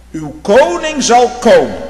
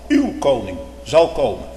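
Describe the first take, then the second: First: Loud, higher, slow proclamation of "Uw koning zal komen"; proclaimed. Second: Said in the usual way. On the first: Real, not acted. Preacher announcing the king to his congregation, proclaiming loudly.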